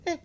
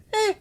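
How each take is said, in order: First: Clipped, quick eh; short eh. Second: Eh drawn out long. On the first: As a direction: snap out a short eh. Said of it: "It could be". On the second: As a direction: stretch the eh out. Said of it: "different durations". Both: Shown as a demonstration.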